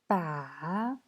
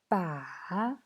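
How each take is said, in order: First: The pitch dips low and then rises. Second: The pitch dips low and then rises.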